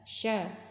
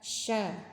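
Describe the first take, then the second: The two takes are said the same way.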